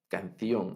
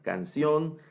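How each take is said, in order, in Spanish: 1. La c se pronuncia como el sonido th. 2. La c se pronuncia como el sonido s. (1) "Entonces la C la pronuncian como Z" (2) "Nosotros no hacemos diferencia entre Z y S"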